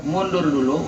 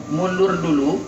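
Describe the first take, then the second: No difference in how they are said.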